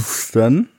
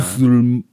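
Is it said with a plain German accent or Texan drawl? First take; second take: plain German; Texan drawl. First: It is said in a plain German accent. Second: It is said in a broad, mumbling Texan drawl.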